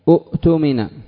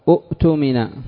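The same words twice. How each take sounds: No difference in how they are said.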